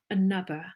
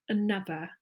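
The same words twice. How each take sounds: No difference in how they are said.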